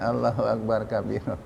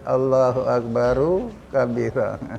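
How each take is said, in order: First: Akbar ends without any added vowel. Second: Akbar ends with an added u vowel. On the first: It can sound like a second takbir. The speaker calls it wrong. "Dia baca Allahu Akbar kabira" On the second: It is a single phrase of praise, not a second takbir. The speaker calls it right. "Dia tak baca Allahu Akbaru kabira"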